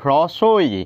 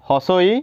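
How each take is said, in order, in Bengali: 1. r ধ্বনিটি h-এর পরে আসে। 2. r ধ্বনিটি s-এর পরে আসে। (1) "কিন্তু হস্ৰ ই বা হস্ৰ ই নহয়, হ্ৰস্ব" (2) "বহুতে কয় হস্ৰ ই, হস্ৰ ই এনেকৈ কয়"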